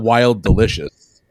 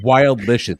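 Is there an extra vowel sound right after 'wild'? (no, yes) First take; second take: yes; no. First: An extra vowel sound is added after wild. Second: It runs straight from wild into licious. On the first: The speaker calls it wrong. "It's not wild delicious" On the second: The speaker calls it right. "The word is wild delicious"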